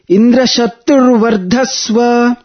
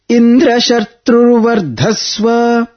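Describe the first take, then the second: First: The pitch rises on tru and on dha. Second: The pitch rises on dra; dhva stays low. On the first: Let the son grow up to kill Indra. The speaker calls it right. "The correct version is, ... the letter Tru, ... and Dha, both are chanted upwards, the Swarita intonation" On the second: Let the son grow up with Indra as his killer. The speaker calls it wrong. "the Sayuktakshara Dra is up, but Vardhasva Dhva is down, Anudatta"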